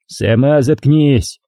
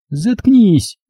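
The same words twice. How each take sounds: First: Slow, drawn-out mock yell, no real volume; yelled retort. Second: High-pitched squealed outburst. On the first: Tolik rises from his chair at Dinka, understated yelling. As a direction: throw it back at her, stretching the words. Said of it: "заорал Толик". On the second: Dovlyatova shuts up the man accusing her, squealing. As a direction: cut him off on a high note. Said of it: "взвизгнула Довлятова". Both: A narrator's reading.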